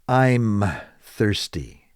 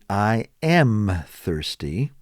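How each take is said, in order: First: The first two words are run together. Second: The first two words are said separately. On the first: "they shorten it and just say" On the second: "Instead of saying"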